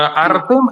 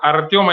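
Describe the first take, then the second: First: The vowel after T is a plain 'e'. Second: The vowel after T is a 'yo' sound. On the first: This is the Ukrainian form of the name. The speaker calls it right. "Artem es en ucraniano" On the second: This is the Russian form of the name. The speaker calls it wrong. "Artyom es en ruso"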